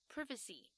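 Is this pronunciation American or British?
British. It is said with a British pronunciation. "但是英式发音就会变成"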